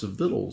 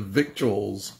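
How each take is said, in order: First: The word is said like 'vittles', without a 'k' sound. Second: The word is said as spelled, with a 'k' sound. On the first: "it's spelled V-I-C-T-U-A-L-S, but it's pronounced victuals" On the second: "I see preachers pronounce that victuals"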